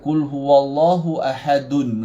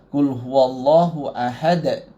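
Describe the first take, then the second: First: The last word ends with an added -un. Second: The last word ends on a bare consonant. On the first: The speaker calls it wrong. "Jangan baca qul huwallahu ahadun pula eh" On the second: The speaker calls it right. "Kita matikan"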